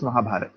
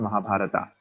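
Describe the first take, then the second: First: The word is said with a native Indian pronunciation. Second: The word is said with a foreign pronunciation. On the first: The speaker is a native Hindi speaker. The speaker calls it right. "as an Indian, I know it's Mahabharata" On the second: The speaker is a foreigner. The speaker calls it wrong. "it's not Mahabharata"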